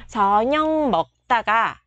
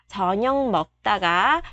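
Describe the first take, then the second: The two takes are said the same way.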